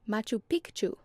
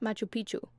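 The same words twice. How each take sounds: First: A k sound is heard before the ch. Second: No k sound is heard before the ch. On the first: This is how the locals say it. The speaker calls it right. "it's actually pronounced" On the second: This is how most outsiders say it. The speaker calls it wrong.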